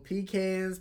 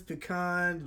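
First: "pecans" as PEE-cans; "pecans" ending like "cans"; alternate pronunciation. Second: "pecan" as puh-KAHN; "pecan" with a short, weak first syllable; alternate pronunciation. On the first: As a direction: say "pecans" with a long EE first. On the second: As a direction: say "pecan" with stress on a broad KAHN. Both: Shown as a demonstration. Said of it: "it can be said two different ways".

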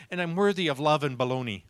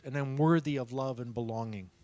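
First: "belonging" said as "baloney", a speech slip; mispronounced belonging. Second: Said in the usual way. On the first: Retold or imitated. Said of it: "almost has a speech impediment". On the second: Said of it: "He's so funny when he talks".

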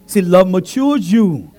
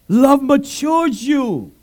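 First: Love matures you said slowly; slow emphasis. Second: Love matures you drawn out, higher; very slow emphasis. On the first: Preacher repeats key line, slow. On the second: Preacher repeats key line, very slow. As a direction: stretch each word of Love matures you. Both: Shown as a demonstration.

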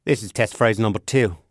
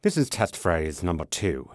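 First: Put-on British accent slipping into Australian; lightly Australian-sounding test read; accidental Australian. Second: Lower, refined British test read; upper-class British, pitched down; posh British. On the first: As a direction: aim British, drift Australian. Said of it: "I sound Australian". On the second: Acted. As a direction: go posh English. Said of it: "Yeah, go posh".

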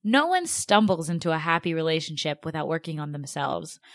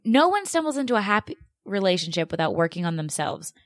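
First: Said in the usual way. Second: Mildly mocking repeat of advice; heated quote. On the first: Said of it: "so I'm gonna read this, like, verbatim". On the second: Host repeats the article's claim, mildly heated mockery. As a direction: quote it back with irritation. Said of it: "this gets me heated".

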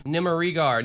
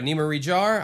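First: "Nimerigar" with a hard G, ending "-gar"; hard G pronunciation. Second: "Nimerijar" with a J sound, ending "-jar". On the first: Host trying an unfamiliar name, "Nimerigar" with hard G. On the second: Second guess at the same name. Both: Shown as a demonstration.

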